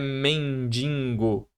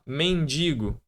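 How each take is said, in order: First: An n sound is added before the g. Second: There is no n sound before the g. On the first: The speaker calls it wrong. "não é mendigo" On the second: The speaker calls it right. "mendigo é o correto"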